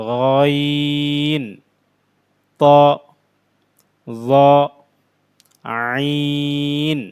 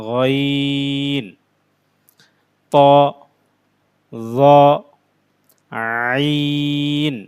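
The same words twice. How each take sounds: No difference in how they are said.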